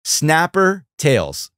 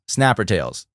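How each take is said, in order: First: Slow, higher, announcer-style title call; drawn-out show title. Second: Said in the usual way. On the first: Shown as a demonstration. Announcing the channel name to stream viewers, slow and showy.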